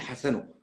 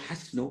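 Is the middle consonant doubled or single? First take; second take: single; doubled. First: The middle consonant is short and single. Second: The middle consonant is held long and doubled. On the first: This is how the speaker's community says the name. "نحن عندنا بنقول حسنه" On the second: This is how the listener's community says the name. "انتم بتقولوا حسنه بالتشديد"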